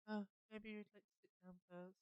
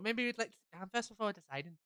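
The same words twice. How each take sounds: First: Much softer, slightly higher character voice; soft-spoken character. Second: Said in the usual way. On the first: Acted. Customer being offered a seat first, soft-spoken. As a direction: say it gently under your breath.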